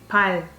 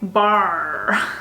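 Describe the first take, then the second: First: The final consonant is a light, slightly rolled L. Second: The final consonant is a strong English R. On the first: The speaker calls it right. "We say 발" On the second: The speaker calls it wrong. "But we don't say bar"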